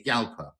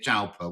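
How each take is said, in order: First: The name begins with a Y sound. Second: The name begins with a J sound. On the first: This is the proper pronunciation. The speaker calls it right. "it's a silent J. It's a Yalpa" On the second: This is how it would be said in Bristol. The speaker calls it wrong. "in Bristol it would be a Jalpa"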